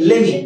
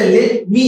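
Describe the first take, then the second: First: The words are blended into one short form. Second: Every word is pronounced separately and fully. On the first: "use করতে পারি লেমি" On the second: "লেট মি এর বদলে"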